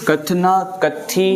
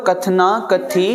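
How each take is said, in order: First: कथी with an aspirated th; slow careful reading. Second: कथी with an aspirated th, said slowly; correct reading. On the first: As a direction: say कथना कथी slowly, word by word. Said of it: "इहो न थींदो". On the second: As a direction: say कथना कथी slowly, th breathed out. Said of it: "पहिलो वारो कथी पढ़ियो वेंदो". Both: Shown as a demonstration.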